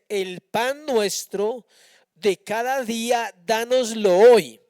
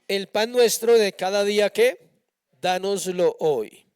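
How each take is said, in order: First: It is read slowly and deliberately. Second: It is read at a normal pace.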